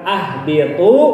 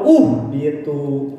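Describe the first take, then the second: First: The word begins with an a vowel. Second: The word begins with a u vowel. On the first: "bukan ah biatu" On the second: "atau uh biatu"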